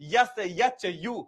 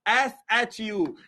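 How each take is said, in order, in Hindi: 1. अक्षरों के नाम 'y' ध्वनि से शुरू होते हैं। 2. अक्षरों के नाम सादे स्वर से शुरू होते हैं। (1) "अरे बाप रे बाप" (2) "यस नहीं"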